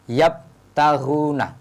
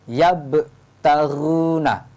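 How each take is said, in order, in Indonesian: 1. Huruf b berhenti datar, tanpa pantulan. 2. Huruf b memantul sebentar. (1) "Tidak boleh yabtaghuna" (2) "Cara membunyikan bacaannya harus ada pantulannya"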